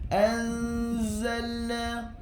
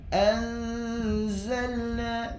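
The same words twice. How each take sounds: No difference in how they are said.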